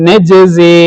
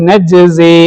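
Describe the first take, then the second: Both takes have the same delivery.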